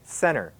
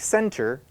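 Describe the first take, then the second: First: The middle T sound is dropped completely. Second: The middle T sound is clearly pronounced. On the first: "A lot of people say" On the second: "Some people say"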